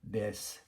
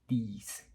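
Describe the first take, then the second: First: The word has a native English vowel. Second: The word has a French-accented vowel. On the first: The speaker calls it right. "what you need to be doing" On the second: The speaker calls it wrong. "They will often say dies"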